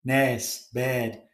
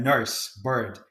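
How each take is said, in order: First: Liverpool vowel, "nurse" as "nairse", "bed" for bird; demonstrating Scouse "nurse" and "bed"; strong Liverpool accent. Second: Said in the usual way. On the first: Shown as a demonstration. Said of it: "That's a very strong Liverpool accent". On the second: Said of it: "because of that specific sound".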